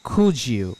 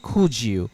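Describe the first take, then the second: No difference in how they are said.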